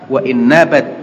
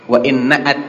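First: A b sound comes before the last vowel. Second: A glottal stop comes before the last vowel. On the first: The speaker calls it wrong. "ini bukan nabat ya, salah ini" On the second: The speaker calls it right. "nun alif ada hamzahnya di atas"

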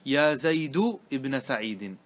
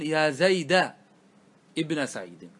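First: The name ends with a 'u' vowel. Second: The name ends with an 'a' vowel. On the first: The name keeps its own fixed ending. "ضم" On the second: The name copies the vowel of the next word. "إتباع للفتحة التي بعده"

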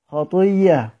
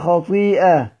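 First: The glottal stop merges into a doubled y sound. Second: A glottal stop is heard after the long vowel.

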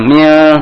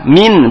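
First: The word ends with an l sound. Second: The word ends with an n sound. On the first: The speaker calls it wrong. "bukan mil" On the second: The speaker calls it right. "Nah, min"

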